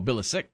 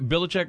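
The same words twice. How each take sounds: First: The C is not pronounced as ch. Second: The C is pronounced as a ch sound. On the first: The speaker calls it right. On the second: The speaker calls it wrong.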